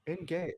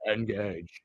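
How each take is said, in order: First: Said in the usual way. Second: Low Engage. in a French accent. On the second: Shown as a demonstration. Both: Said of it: "I used a French accent instead".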